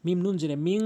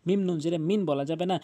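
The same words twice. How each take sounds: First: "মিং" ending in a held nasal ng hum; "মিং" hummed nasally, not "মিন"; nasal ghunnah. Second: Said in the usual way. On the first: Shown as a demonstration. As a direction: push "মিং" through the nose with ng. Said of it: "বলতে হবে".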